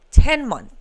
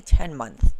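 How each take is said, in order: First: "Ten months" punched louder and higher, falling at the end; emphatic repeat. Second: Said in the usual way. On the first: Real, not acted. Host hammering home how fast it happened, "Ten months" said emphatically. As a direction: hit "Ten months" hard as a standalone phrase.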